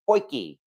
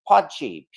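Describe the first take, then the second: First: It is said like 'poy-kee'. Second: It is said as spelled, like 'pot-jee'. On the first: The speaker calls it right. "they pronounce it more like Poiki" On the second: The speaker calls it wrong. "looks like it might be pronounced Potjie"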